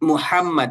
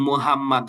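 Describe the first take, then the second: First: The h is a strong, throaty sound. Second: The h is a weak, plain sound. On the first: The speaker calls it right. "এখানে কিন্তু ওই যে হা আসছে দেখছেন" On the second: The speaker calls it wrong. "যদি আপনি আহ এই হাটা ভালো করে উচ্চারণ করতে না পারেন"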